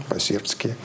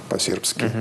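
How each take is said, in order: No difference in how they are said.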